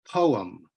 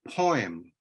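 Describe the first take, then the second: First: It is said with an um ending, like po-um. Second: It is said with an oi sound, like poy-em. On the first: "like it has an um inside it" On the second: "like it has an oi inside it"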